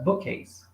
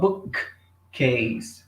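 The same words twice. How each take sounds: First: The words join with a single k sound. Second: A pause splits it and the k sound repeats. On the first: The speaker calls it right. "Eliminam um e falam direto" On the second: The speaker calls it wrong. "Não fala bookcase. ... Eles não fazem essa pausa e repetem o som"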